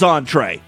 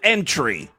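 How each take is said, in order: First: It sounds like on-tray, ending in tray. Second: It sounds like the English word entry. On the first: The speaker calls it right. "the word is entree" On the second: The speaker calls it wrong. "This guy pronounced it entry"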